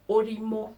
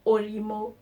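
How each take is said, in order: Both takes have the same delivery.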